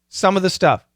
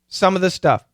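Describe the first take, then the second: The two takes are said the same way.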